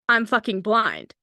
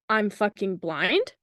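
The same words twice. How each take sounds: First: It falls at the end like a statement. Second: It rises at the end like a question.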